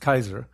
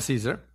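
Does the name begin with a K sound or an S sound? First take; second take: K sound; S sound. First: The name begins with a K sound. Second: The name begins with an S sound. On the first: This is the original Roman pronunciation. "The Romans pronounced the C as a K" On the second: This is the modern English pronunciation. "But we call him Caesar"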